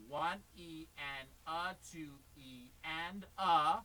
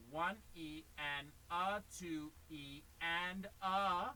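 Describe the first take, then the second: First: Very slow, deliberate count; slow demo count. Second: Slow, drawn-out count. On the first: Teacher modelling the count slowly for the student to watch. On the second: Teacher counting slowly for the student, drawn out. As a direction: spell out each subdivision slowly. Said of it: "You go". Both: Shown as a demonstration.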